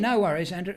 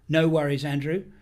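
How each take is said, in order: First: It is said in the speaker's usual accent. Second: It is said in an American accent.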